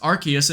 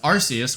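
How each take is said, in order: First: The C is said as a hard K sound. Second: The C is said as a soft S sound. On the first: "Whalen chose a pronunciation with a hard C sound" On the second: "with a soft C"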